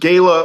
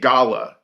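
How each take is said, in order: First: It is said with an American pronunciation. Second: It is said with a British pronunciation.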